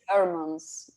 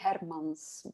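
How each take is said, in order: First: The name is said with an English pronunciation. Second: The name is said with a Flemish pronunciation. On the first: This is how it is said locally. "but here it's Hermans" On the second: This is how it is said in the home country. "in Flemish, it would be Hermans"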